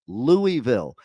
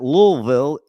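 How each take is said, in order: First: The first part is said fully as 'Louis'. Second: The first part is squeezed into a short 'Lul'. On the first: This follows the name it comes from. The speaker calls it right. "It's Louisville" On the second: This is how the locals say it. The speaker calls it wrong. "don't even know how to pronounce Louisville right"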